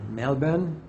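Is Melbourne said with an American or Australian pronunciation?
Australian. It is said with an Australian-style pronunciation. "if you're in Australia"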